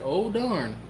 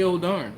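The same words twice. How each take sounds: First: Said in the usual way. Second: Mock exclamation. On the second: Shown as a demonstration. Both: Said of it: "But I didn't say".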